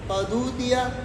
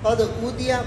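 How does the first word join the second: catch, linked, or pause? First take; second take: linked; catch. First: The consonant runs straight into the next vowel. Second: The words join directly, with the glottal catch kept. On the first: "नकल हरकत के साथ पढ़ेंगे" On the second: "बगैर सकते के पढ़ेंगे"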